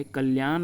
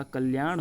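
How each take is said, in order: First: कल्याण ending in plain N; straight-tongued N closing कल्याण; incorrect pronunciation. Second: कल्याण ending in retroflex N; curled N closing कल्याण; correct pronunciation. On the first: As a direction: say कल्याण as "kalyaan", dental N. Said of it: "नहीं होता". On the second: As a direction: say कल्याण as "kalyaaṇ", tongue curled. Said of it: "कल्याण होता है". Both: Shown as a demonstration.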